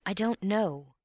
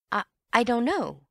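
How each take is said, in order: First: A slightly higher, sorry I don't know; lightly apologetic shrug of a reply. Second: Higher, louder, stumbling I, I don't know; startled stammer, much higher. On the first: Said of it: "said Antony apologetically". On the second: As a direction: trip over the first I in shock. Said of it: "he stammered". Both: Acted.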